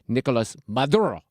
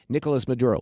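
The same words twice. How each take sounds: First: The name is said with exaggerated Spanish sounds. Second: The name is said with plain English sounds.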